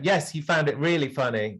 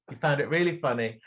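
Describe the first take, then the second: First: Said in the usual way. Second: Fast, through a laugh. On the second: Acted. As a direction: rush it out laughing at him. Accusing, then repeats laughing.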